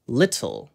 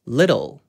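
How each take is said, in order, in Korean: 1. 가운데 T 소리를 또렷하게 살려서 발음합니다. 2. 가운데 T 소리는 약하게 줄여서 넘어갑니다. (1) "영국식으로는" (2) "미국식으로는"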